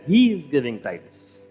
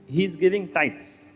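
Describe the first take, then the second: First: The word he carries the stress. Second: The word tithes carries the stress. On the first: The focus is on the giver himself. The speaker calls it right. "the emphasis is that he is giving tithes" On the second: The focus is on what is given. The speaker calls it wrong. "The emphasis is not on the tithes"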